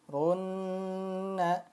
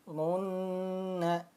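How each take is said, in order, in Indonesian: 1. Huruf n yang ganda ditahan dua ketukan. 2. Huruf n yang ganda ditahan dua ketukan.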